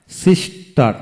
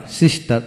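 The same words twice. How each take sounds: First: sister split into two beats; syllable by syllable. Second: Said in the usual way. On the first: Shown as a demonstration. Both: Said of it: "যতটুকু অংশ একসাথে উচ্চারণ করা যায়".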